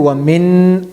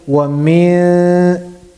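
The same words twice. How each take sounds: First: The n sound is pronounced fully and clearly. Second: The n sound is hidden and comes through the nose. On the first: The speaker calls it wrong. "I don't pronounce the noon first of all" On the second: The speaker calls it right. "I have to hide the sound of the noon"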